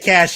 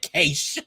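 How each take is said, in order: First: The word is said like 'cash'. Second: The word is said like 'quiche' with an A. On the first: The speaker calls it right. "I would have been fine if you said cache, because it's like, yeah, that's kind of how it's spelled" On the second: The speaker calls it wrong. "like quiche, but with an A"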